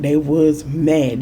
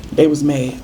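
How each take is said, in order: First: "they was mad" said very slowly, each word weighted; stress on mad. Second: Said in the usual way. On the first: Shown as a demonstration. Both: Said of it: "When I say they was mad".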